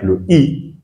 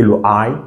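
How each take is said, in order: First: I said "ee", drawn out slowly; French I sound. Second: I said "eye"; English I sound. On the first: Teacher recapping the two sounds, I said "ee". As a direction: pronounce I as in a French word. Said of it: "comme si on avait un mot en français". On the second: Teacher recapping the two sounds, I said "eye". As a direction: pronounce I as the English letter name. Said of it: "son son en anglais". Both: Shown as a demonstration.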